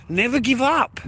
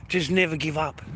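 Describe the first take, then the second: First: Higher, rising push on "up"; rallying cry. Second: Said in the usual way. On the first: Real, not acted. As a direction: lift "up" high like a rallying call. Rallying repeat to the viewers.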